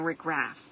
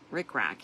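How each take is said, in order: First: The second word ends with an f sound. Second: The second word ends with a k sound. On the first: The speaker calls it wrong. "I'm saying Rick Raff. That's not right" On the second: The speaker calls it right. "Rick Rack, yes"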